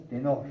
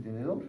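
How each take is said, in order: First: "tenor" said in place of "tenedor", a clipped wrong word; phonemic paraphasia. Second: Said in the usual way. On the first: Shown as a demonstration. Neurologist demonstrating a patient's sound slip to students, plain voice. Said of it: "pero no dicen tenedor, sino tenor". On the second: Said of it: "ellos quieren decir tenedor".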